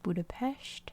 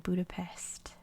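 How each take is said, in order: First: Budapest is said with the local pronunciation. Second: Budapest is said with the American pronunciation. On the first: "I know it's pronounced Budapest" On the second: "in America we say Budapest"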